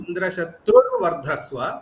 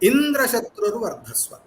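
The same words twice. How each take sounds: First: The high pitch falls on the compound's last syllable. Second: The high pitch falls on the compound's first syllable. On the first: "an Antyodatta and Adyudatta. So both the ways" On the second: "two ways that you can actually pronounce this"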